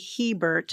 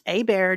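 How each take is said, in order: First: It starts with an H and no R. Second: It starts with a vowel, like 'a bear'. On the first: This is how the spelling reads. "phonetically would be Hebert" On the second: This is how the family says it. "it is pronounced a bear"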